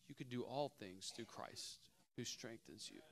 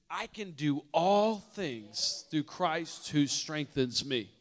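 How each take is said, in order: First: Quiet reading. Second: Loud, slow, every word planted; bold declaration. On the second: Preacher showing the church how to declare the verse, loud and slow. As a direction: declare it like you own it. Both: Shown as a demonstration. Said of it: "Some of us need to begin to declare that".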